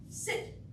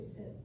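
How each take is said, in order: First: The word is said firmly and with authority. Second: The word is said softly and without authority. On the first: The speaker calls it right. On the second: The speaker calls it wrong.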